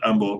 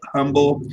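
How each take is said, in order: First: The word starts without an H sound. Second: The word starts with an audible H sound. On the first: This is how the locals say it. "they pronounce it humble. The H is kind of silent" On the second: This is how the spelling suggests it. "although it is spelled humble"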